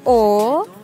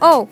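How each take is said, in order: First: It is said with the dipping third tone. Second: It is said with the short falling fourth tone. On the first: "Bentuk ketiga" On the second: "Bentuk keempat"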